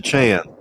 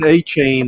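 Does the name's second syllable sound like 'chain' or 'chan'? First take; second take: chan; chain. First: The second syllable sounds like 'chan'. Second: The second syllable sounds like 'chain'. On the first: The speaker calls it right. "it's pronounced Achan" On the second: The speaker calls it wrong. "everyone was saying A-Chain at first"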